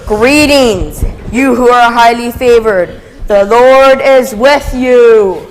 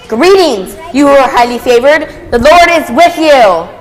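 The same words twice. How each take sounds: First: It is said in a calmer, reverent tone. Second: It is said with excited, energetic enthusiasm.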